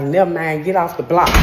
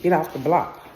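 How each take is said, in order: First: Louder, curt command; gruff order. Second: Said in the usual way. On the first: Retold or imitated. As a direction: dismiss her sharply. Guy ordering her away.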